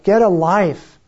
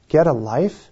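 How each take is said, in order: First: "Get a life!" yelled up high and loud, falling at the end; imitating a mocking shout from a window; retold heckler shout. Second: Musing, incredulous repeat; puzzled echo. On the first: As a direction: throw it down like a jeering heckler. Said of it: "And one of them shouted". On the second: Real, not acted. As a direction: turn the heckler's jab over in your mind. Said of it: "And I thought about it".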